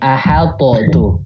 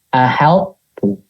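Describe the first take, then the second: First: The t is released with an extra bounce. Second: The t is said once without a bounce. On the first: The speaker calls it wrong. "Kalau kalau kalau berarti gini" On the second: The speaker calls it right. "Tapi tadi baca gini"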